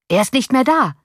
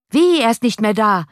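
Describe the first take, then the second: First: Crying out. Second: High, loud disbelieving echo; incredulous question. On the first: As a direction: call out that he is gone. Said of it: "rief dieser Mensch". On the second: Latecomers in the street ask the window, high incredulous question. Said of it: "fragten von der Straße". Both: A narrator's reading.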